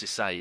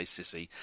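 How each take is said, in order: First: Cisse said see-SAY, with the stress on the end; correct Cisse. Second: Sissy said like the English word sissy, SIS-ee; Sissy with a soft English s and short i, no French ending; wrong reading as Sissy. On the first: Host correcting the player's name, Cisse as see-SAY. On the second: Host reading the player's name wrongly, Sissy as in sissy. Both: Shown as a demonstration. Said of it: "but it's not Sissy".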